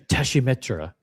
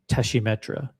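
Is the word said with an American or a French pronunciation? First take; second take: French; French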